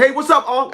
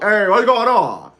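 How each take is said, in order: First: Said in the usual way. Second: Slow, slurred uncle greeting; Uncle Al impression. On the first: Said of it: "I said". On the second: Uncle answers his nephew's phone call, slow and slurred. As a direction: drag and blur the words like the uncle. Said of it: "my uncle talked like this".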